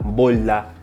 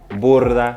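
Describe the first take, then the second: First: The r is not rolled. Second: The r is strongly rolled. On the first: "como yo diría en mi español dominicano" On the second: "they're gonna roll the R"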